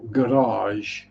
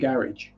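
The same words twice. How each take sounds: First: It is said in a French-sounding way. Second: It is said in a plain English way.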